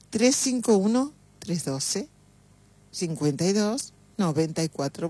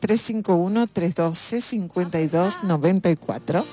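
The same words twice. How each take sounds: First: The number is said slowly. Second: The number is said fast.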